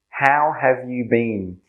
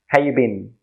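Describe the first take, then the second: First: Every word is said fully and carefully. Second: It is said quickly with reduced words.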